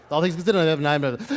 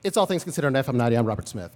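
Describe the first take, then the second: First: Rushed all-in-one-breath radio intro, louder; a second fast take of the one-breath station intro; news director impression. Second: Fast radio host read, all in one breath; imitating the news director's one-breath style, then a drop for the name; news director impression. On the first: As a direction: fire it off fast like the boss on air. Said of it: "That's his breath". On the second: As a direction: rattle it off on one breath like the boss. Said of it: "so it was like this".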